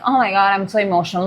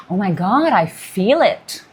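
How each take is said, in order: First: Fast, dramatic "oh my God" rush; hammed-up emotional overload, rattled off quickly; mock overwhelmed gush. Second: Slow, hushed "I feel it" in wonder; awed realization. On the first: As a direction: gush it out like you're drowning in feelings. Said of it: "Not like". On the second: Pretend. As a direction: let the feeling land slowly and savour it. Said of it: "No, it's gonna be like".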